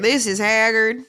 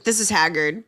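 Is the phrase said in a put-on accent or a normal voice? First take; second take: accent; normal voice. First: It is said in a put-on accent. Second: It is said in a normal voice.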